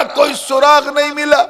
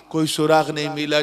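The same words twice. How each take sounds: First: Very high, ringing despair at सुराग नहीं मिला; impassioned cry. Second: Said in the usual way. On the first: A narrator's reading. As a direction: proclaim the fruitless search at high pitch. Dramatic take, then subdued repeat. (ऊँचे सुर में हताश पुकार)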